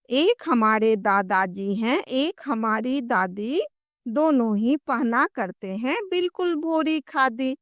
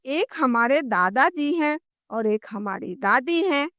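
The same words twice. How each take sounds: First: Put-on sing-song children's poem recitation; कविता पाठ. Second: Said in the usual way. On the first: Shown as a demonstration. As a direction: recite the rhyme in measured lilting lines, stretching line ends. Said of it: "हम लोग कविता पढ़ते हैं". (लय में बाल कविता का पाठ) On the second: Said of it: "बच्चे क्या कहते हैं कि".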